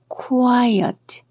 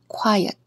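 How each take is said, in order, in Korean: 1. 이 단어는 천천히 그리고 또박또박 발음됩니다. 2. 이 단어는 빠르고 자연스럽게 발음됩니다. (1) "천천히 따라 읽어볼게요" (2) "일상생활에서는 이렇게 들리겠죠?"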